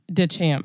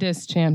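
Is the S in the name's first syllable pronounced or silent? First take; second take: silent; pronounced. First: The name is said without an S sound. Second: The name is said with an S sound. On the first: The speaker calls it right. "The S is silent" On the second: The speaker calls it wrong. "not disc champ"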